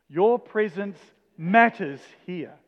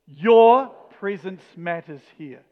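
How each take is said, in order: First: The stress falls on the word 'matters'. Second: The stress falls on the word 'your'. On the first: "each time we're going to put the emphasis on the next word" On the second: "each time we're going to put the emphasis on the next word"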